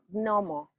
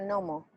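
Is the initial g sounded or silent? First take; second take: sounded; silent. First: The initial g is clearly pronounced. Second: The initial g is not pronounced. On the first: This is the original, correct form. The speaker calls it right. "debería de pronunciarse gnomo" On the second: This is the common everyday form. The speaker calls it wrong. "Hay una G antes, pero se pronuncia gnomo"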